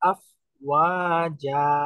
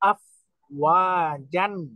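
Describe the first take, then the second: First: The word ends in a drawn-out long vowel. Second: The word ends with an n sound. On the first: The recitation stops on this word. "এখন থামতেছি আমরা আফ ওয়াজা ... এই যে একালিফ টেনে" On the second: The recitation continues past this word. "মূল শব্দটা হলো আফ ওয়াজান"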